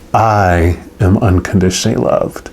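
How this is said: The word "I" carries the main stress. It is personally about oneself. "Emphasize the first word"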